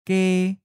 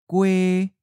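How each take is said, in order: First: The word ends in a plain e vowel. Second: The word ends in a ue-like vowel. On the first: "We'll first read the common south or inland-leaning pronunciation" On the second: "then follow with the common north or the seacoast-leaning accent"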